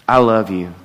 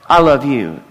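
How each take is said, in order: First: It sounds deep, heartfelt and sincere. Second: It sounds hurried and offhand, not sincere.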